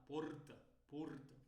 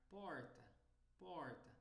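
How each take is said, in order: First: "porta" with European Portuguese R and closed vowels. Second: "porta" with common Brazilian R. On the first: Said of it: "lá eles vão falar". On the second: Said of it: "um sotaque brasileiro comum". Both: Shown as a demonstration.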